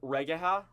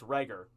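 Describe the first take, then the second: First: The name is said with three syllables. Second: The name is said with two syllables. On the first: The speaker calls it wrong. "Probably saying that wrong for sure" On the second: The speaker calls it right. "Oh, wait. It's Reger"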